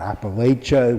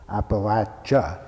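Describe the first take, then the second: First: The third syllable does not sound like 'latch'. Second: The third syllable sounds like 'latch'. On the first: This is how outsiders usually say it. The speaker calls it wrong. "which is what most of us have always said" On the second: This is how the region's people say it. The speaker calls it right. "latch as in a latch on a door ... that's the proper pronunciation"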